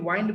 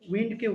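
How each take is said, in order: First: The vowel sounds like the word 'eye'. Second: The vowel sounds like the short 'i' in 'in'. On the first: The speaker calls it wrong. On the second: The speaker calls it right.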